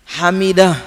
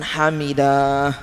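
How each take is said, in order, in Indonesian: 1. Vokal akhir diucapkan pendek. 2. Vokal akhir dipanjangkan. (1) "pendek ya" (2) "jangan hamidah, keliru itu"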